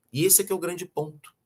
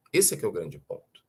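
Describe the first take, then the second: First: First take, pitched higher, driving the point; emphatic first statement. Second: Lower echoed repeat. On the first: Lecturer to audience, stating the key point with emphasis. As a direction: set up the key point before repeating it. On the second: Lecturer repeats the key point to audience, lower and reflective. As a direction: repeat it lower, letting it sink in. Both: Real, not acted.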